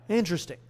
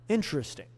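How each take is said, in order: No difference in how they are said.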